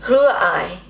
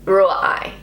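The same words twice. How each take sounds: First: The R is made at the back of the throat. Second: The R is made at the front, without throat sound. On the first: The speaker calls it right. "I think that was a little bit better" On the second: The speaker calls it wrong. "I've missed that kind of uh, throat thing"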